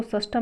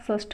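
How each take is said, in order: First: षष्ठम ending in am; incorrect form. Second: षष्ठ ending on th with no m; correct form. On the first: Teacher rejecting the word, षष्ठम with final m. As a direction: say षष्ठम as shash-tham. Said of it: "षष्ठम नहीं होता". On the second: Teacher giving the only correct word, षष्ठ without m. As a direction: say षष्ठ as shashth. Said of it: "षष्ठ होता है only". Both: Shown as a demonstration.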